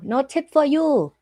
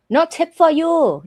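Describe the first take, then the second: First: Said in the usual way. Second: Louder, punchy no-tip catchphrase; mock snub. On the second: Streamer teasing chat, louder and punchy. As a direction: snap it out as a joke. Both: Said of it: "catchphrase callback".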